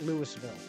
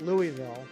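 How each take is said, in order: First: The city name is said an offensive outsider way. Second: The city name is said an acceptable outsider way. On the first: The speaker is an outsider who provokes locals. "if you're just looking to get ended, you call it Louisville" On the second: The speaker is an outsider who avoids offending. "If you're not from Louisville and you're not, um, you know, looking to get beat up, you call it Louisville"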